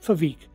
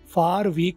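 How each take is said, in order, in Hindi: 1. 'For' सिकुड़कर एक f रह जाता है, जो अगले शब्द से जुड़ जाता है। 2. 'For' पूरा बोला जाता है, उसके स्वर और r के साथ। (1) "फार का ओ आर को हम साइलेंट कर देते हैं" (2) "फार वीक की नहीं बजाय"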